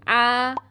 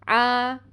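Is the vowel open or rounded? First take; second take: open; open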